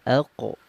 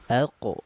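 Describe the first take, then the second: The two takes are said the same way.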